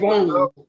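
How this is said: The word has a French-sounding pronunciation. "put a little French in there"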